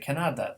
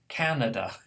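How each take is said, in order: First: The stress is on the middle syllable. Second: The stress is on the first syllable. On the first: The speaker calls it wrong. "a Pole would say Canada" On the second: The speaker calls it right. "instead of"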